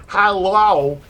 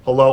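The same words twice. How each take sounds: First: Hello pitched higher and louder; raised hello. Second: Said in the usual way. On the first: Shown as a demonstration. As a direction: lift the Hello up high and louder. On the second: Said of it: "So if I say".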